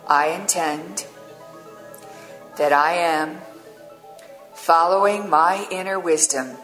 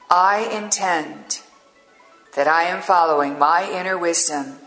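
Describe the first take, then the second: First: It is spoken at a slower pace. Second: It is spoken at a normal, quicker pace.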